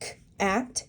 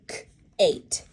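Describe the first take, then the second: First: The vowel is a short 'a' sound. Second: The vowel is a long 'ay' sound. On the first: The speaker calls it right. "the A is short" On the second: The speaker calls it wrong. "instead of"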